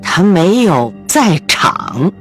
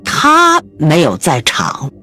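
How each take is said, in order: First: The stress is on 在场. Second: The stress is on 他.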